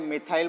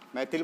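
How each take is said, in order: First: The word ends with a long 'thyle' sound. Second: The word ends with a short 'thil' sound. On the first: This is how it is normally said. "मिथाइल बोला जाता है" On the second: This is how English-medium students say it. "मैथिल बोलते हैं English medium वाले"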